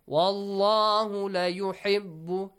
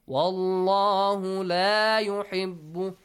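First: The vowel in 'la' is cut short. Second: The vowel in 'la' is held long. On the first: The one named surely loves those who are ungrateful. The speaker calls it wrong. "it means Allah for sure loves those who are ungrateful" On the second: The one named does not like those who are ungrateful. The speaker calls it right. "If you read it this way, it's correct"

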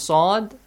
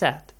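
First: The vowel sounds like an o. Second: The vowel sounds like an a. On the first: "O becomes sod" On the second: "a becomes sad"

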